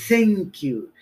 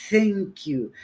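Both takes have the same delivery.

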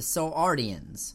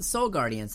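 First: The second word begins with a vowel sound. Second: The second word begins with a g sound. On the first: The speaker calls it right. "it's the Soul Ardians" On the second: The speaker calls it wrong. "I mispronounced that. It's not the Soul Guardians"

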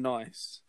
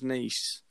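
First: It rhymes with 'rice', like the English word. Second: It sounds like 'neece', like the French city. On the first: "I've always called them nice" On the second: "supposed to be pronounced as nice"

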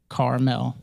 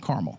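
First: It is pronounced as the mountain name, not candy-like. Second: It is pronounced like the candy caramel. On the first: It names the mountain range. The speaker calls it right. "It's like car, K-A-R-M-E-L" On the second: It names the candy. The speaker calls it wrong. "not Carmel, not caramel"

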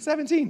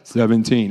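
First: The number is said brightly, with high energy. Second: The number is said flatly, with low energy. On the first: The speaker calls it right. "It was like 17. I like it. Say it with a smile" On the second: The speaker calls it wrong. "Y'all even said it wasn't like 17"

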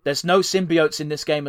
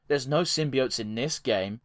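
First: It is said in a sincere, enthusiastic tone. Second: It is said in a sarcastic, mocking tone. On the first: The speaker genuinely finds this interesting. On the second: The point is mocked as obvious or disappointing.

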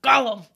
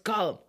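First: It is said in a put-on Gollum voice. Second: It is said in a normal voice.

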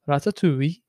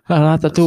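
First: It is said in a Welsh accent. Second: It is said in his usual accent.

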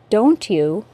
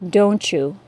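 First: A T sound then a Y sound. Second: A single CH sound links the words.

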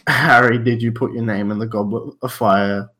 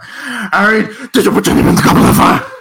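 First: It is said calmly and quietly. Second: It is shouted loudly.

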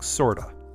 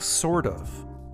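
First: The words are slurred together into one. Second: Both words are said fully and separately. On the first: The speaker calls it wrong. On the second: The speaker calls it right.

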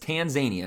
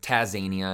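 First: There is an n sound before the z. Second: There is no n sound before the z. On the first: The speaker calls it right. "but it's Tanzania" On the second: The speaker calls it wrong. "I want to pronounce it that way"

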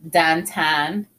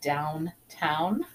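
First: The vowels are flattened in a local Pittsburgh way. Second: The vowels are said in a standard way. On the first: "Downtown instead of" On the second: "instead of downtown"

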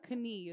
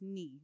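First: The k at the start is pronounced. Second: The k at the start is silent. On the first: The speaker calls it wrong. "It's not knee" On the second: The speaker calls it right. "It's silent"

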